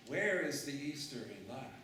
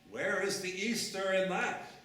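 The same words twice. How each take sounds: First: Said in the usual way. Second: Louder and higher rhetorical question; loud challenge. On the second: Shown as a demonstration. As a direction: call it out to the congregation.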